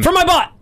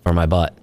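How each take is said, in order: First: The phrase is shouted loudly. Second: The phrase is spoken at normal volume. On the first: The speaker calls it wrong. "Because I yelled it" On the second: The speaker calls it right. "If you just said it"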